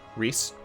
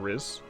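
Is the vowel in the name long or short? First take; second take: long; short. First: The name has a long ee vowel ending in s. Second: The name has a short vowel ending in z. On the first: The speaker calls it right. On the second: The speaker calls it wrong.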